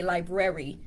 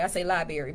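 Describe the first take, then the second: First: "library" said fully as "lie-brer-ee"; careful, correct "library", lie-brer-ee; proper pronunciation. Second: "library" said as "lie-berry"; easy country "library", like lie-berry; natural, improper pronunciation. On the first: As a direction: sound both Rs in "library". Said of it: "I know how to say library". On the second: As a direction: drop the first R of "library". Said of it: "naturally it don't come out properly". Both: Shown as a demonstration.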